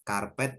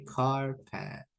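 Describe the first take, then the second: First: Said in the usual way. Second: Carpet said slowly as English KAR-pet; English pronunciation. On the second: Shown as a demonstration. Teacher showing students how karpet turns English, English pronunciation. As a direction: say carpet the English way, drawing out both syllables. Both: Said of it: "kalau kita bacanya tuh nginggris".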